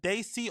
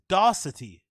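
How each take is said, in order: First: The name has no 't' sound near the end. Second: The name has an extra 't' sound near the end. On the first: The speaker calls it right. "It's just Brendan Dacey" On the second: The speaker calls it wrong. "He says Darcity. There's no T"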